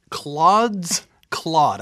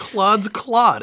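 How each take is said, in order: First: Slow, careful title. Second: Tongue-twister retry. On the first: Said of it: "I gotta say that slow". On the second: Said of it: "saying it is almost as hard as playing it". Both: Real, not acted.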